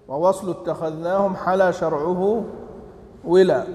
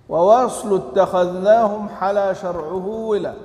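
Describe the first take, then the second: No difference in how they are said.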